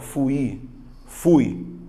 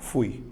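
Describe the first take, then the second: First: The vowels are split into two syllables. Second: The vowels are joined in one syllable. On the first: The speaker calls it wrong. "Você não fala fui, fui. É apenas uma sílaba" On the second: The speaker calls it right. "você faz uma, uma vez só"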